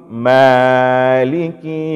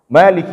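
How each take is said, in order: First: The first vowel is held too long. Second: The first vowel is held two counts only. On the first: The speaker calls it wrong. "itu sudah lebih" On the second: The speaker calls it right. "Ini uh, tidak ada masalah"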